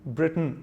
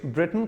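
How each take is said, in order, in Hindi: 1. t की आवाज़ साफ़ बोली जाती है। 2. t की आवाज़ लगभग साइलेंट है। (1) "ब्रिटेन ब्रिटेन जैसा कुछ नहीं होता" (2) "द ग्रेट ब्रिटेन कहा जाता है"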